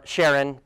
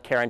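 First: "Charon" with a soft SH, like Sharon; soft SH pronunciation. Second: "Charon" with a hard K, like Karen; hard K pronunciation. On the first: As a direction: say "Charon" starting with SH as in "shell". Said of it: "heard it pronounced". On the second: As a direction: say "Charon" starting with K as in "care". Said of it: "I like Charon just 'cause it sounds cooler". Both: Shown as a demonstration.

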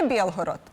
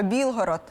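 First: Білгород said with "є" for і, Biel-horod; Russian є vowel. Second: Білгород with an "і" sound in the first syllable; Ukrainian і vowel. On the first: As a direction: say Білгород as Бєлгород. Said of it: "а в російській є". (російське «є»: Бєлгород замість Білгород) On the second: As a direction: say Білгород as Bil-horod. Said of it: "і, а в російській є". (українське «і» у слові Білгород) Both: Shown as a demonstration.

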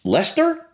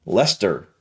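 First: LESTER with a high questioning rise. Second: LESTER lower, with a falling end; trying it out. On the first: Reactor checking the British pronunciation of Leicester, questioning. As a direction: say Lester as a doubtful question, pitch jumping up. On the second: Reactor repeating the British pronunciation to himself, trying it out. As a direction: say Lester as a settled statement. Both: Shown as a demonstration. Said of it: "is that really how you pronounce that".

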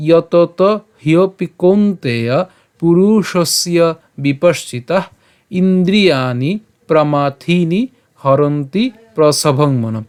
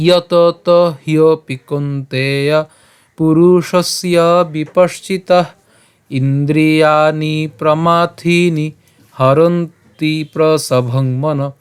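First: Slow, careful shloka reading without melody; measured Sanskrit model reading; spoken verse recitation. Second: Slow, sustained Sanskrit chanting; chanted, intone the verse tunefully, holding long vowels; sung recitation on even notes; melodic shloka chant. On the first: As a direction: read word group by word group. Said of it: "আমি আবার বলছি". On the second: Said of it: "সুর করে পাঠ করি". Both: Shown as a demonstration.

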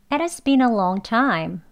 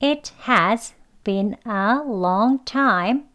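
First: "has" shrunk to "as", "been a" linked; reduced as. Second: "It has been a long time" read slowly and clearly; slow first read for learners; slow careful model. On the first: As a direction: run "been a" together and say "as". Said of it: "has도 아니고 그냥 as로 더 줄여서요". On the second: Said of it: "as라는 발음으로 되는 문장은요". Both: Shown as a demonstration.

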